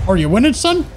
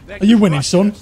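First: It is said in a Canadian accent. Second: It is said in a Yorkshire accent. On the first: "A bit Canadian, maybe" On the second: "in my head it's like a Yorkshire accent almost"

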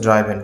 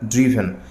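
First: The first vowel sounds like 'eye'. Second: The first vowel sounds like 'ih'. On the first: The speaker calls it wrong. "অনেকে বলি হচ্ছে ড্রাইভেন" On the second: The speaker calls it right. "কিন্তু উচ্চারণটি হবে ড্রিভেন"

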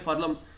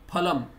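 First: The word begins with an f sound. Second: The word begins with an aspirated p sound. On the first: This is the Urdu-influenced Hindi pronunciation. The speaker calls it wrong. "they say falam" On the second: This is the pure Sanskrit pronunciation. The speaker calls it right. "In Sanskrita or Shuddha Hindi it should be phalam"

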